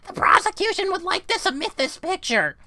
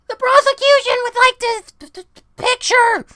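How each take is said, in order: First: It is said in a less high voice. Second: It is said in a very high voice.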